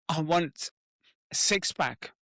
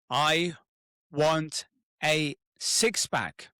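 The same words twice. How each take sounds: First: It is said hesitantly, as if afraid. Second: It is said loudly with strong conviction. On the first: The speaker feels resistance to the goal. "When you're almost like afraid to say it" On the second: The speaker truly commits to the goal. "say it really out loud with conviction"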